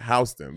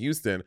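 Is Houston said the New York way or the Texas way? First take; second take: New York; Texas. First: It is said the way New Yorkers say it. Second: It is said the way Texans say it. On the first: "but New Yorkers are like Houston" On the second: "People from Texas, people, they will say Houston"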